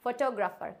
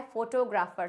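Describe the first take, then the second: First: फोटोग्राफर as "fuh-tog-ra-fer"; correct pronunciation. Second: फोटोग्राफर as "pho-to-gra-fer"; wrong pronunciation. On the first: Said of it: "इसका best pronunciation है". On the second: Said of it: "बहुत ही गलत pronunciation". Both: Shown as a demonstration.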